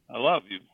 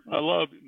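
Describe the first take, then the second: First: Said in the usual way. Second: Raised, hammed-up I love you; mock gushing. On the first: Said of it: "No, I say". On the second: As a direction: say "I love you" high, as a joking confession. Joke take, then corrected.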